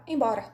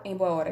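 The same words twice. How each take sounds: First: "embora" run together, with no "boa"; "embora" said as one merged word; fused into one word. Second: "em boa hora" with each word kept distinct; "em boa hora" said as three full words; three separate words. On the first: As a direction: squeeze it into "embora". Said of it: "eu falo embora". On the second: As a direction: keep "em", "boa" and "hora" apart. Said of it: "Eu não falo em boa hora". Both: Shown as a demonstration.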